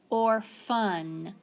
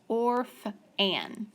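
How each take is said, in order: First: The second vowel is a weak schwa sound. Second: The second vowel is a full short A. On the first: The speaker calls it right. "that schwa sound" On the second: The speaker calls it wrong. "this should be a short A, but look what happens"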